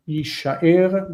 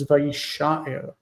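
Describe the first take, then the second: First: "Yishaer" stressed on the final "er"; stress on last syllable. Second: "Vayishaer" stressed on "sha", light final "er"; stress moved back. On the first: Teacher showing the base verb form, final stress on "Yishaer". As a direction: land the stress at the end of "Yishaer". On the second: Teacher showing an accent change, stress on "sha" in "Vayishaer". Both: Shown as a demonstration. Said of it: "the change in, uh, accent".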